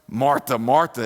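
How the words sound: It is said in an angry tone.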